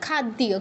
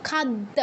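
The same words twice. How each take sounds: First: খাদ্যীয় as khad-diya, y heard; sounded y. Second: খাদ্য as khad-da, no y; doubled d. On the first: Teacher corrects herself for students, khad-diya with y sounded. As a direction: end খাদ্যীয় in an audible diya. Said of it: "ওইটা তো ইয় ফলা". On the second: Teacher shows hypothetical double letter, খাদ্য as khad-da. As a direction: hold dd in খাদ্য, leave out y. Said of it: "দয় দ থাকলে কি হতো". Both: Shown as a demonstration.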